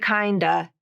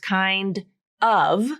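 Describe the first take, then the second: First: It is one reduced word keeping the D. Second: It is said as two full words. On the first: "It's kind of reduced to kinda" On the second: "it's actually kinda is actually two words, kind of"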